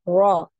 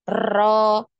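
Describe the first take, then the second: First: The r is said with no vibration. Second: The r is rolled with many vibrations. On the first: "Tidak ada getarannya. Ini dihilangkan" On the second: "ini terlalu berlebihan"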